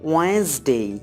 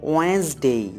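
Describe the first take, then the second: Both takes have the same delivery.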